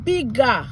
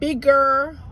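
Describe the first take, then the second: First: The ending is said as a Jamaican patois 'a'. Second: The ending is said as in standard English.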